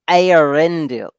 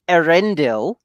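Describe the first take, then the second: First: The name is pronounced in the Elvish way. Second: The name is pronounced in an English-style way. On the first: This is how the name is said in the Elvish language. The speaker calls it right. "whereas in Elven you say Eärendil" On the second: This is how another person says the name. The speaker calls it wrong. "Like he says it Eärendil"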